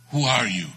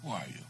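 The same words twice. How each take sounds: First: Loud, imitated intimidating challenge; acting a mean man's loud question; mean demand. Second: Soft, falling imitation of a menacing question; hushed echo of the stranger's demand; mean question repeated. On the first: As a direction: demand it loudly, as the menacing stranger. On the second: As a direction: repeat it much more softly, still menacing. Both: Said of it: "in that mean, uh".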